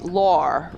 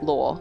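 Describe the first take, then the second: First: It is said in an American accent. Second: It is said in an Australian accent. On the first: "how these two words are meant to be said in American" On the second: "in Australian, law for both"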